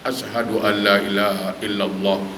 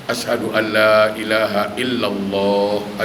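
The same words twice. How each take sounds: First: The long vowels are cut short. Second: The long vowels are held long. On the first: The speaker calls it wrong. "Itu salah" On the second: The speaker calls it right. "itu baru betul. Karena itu ada panjang"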